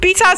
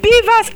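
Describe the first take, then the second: First: The term sounds like 'bitters'. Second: The term sounds like 'beavers'. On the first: The speaker calls it wrong. "not bitters and cost wreck" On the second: The speaker calls it right. "It's beavers and IREF"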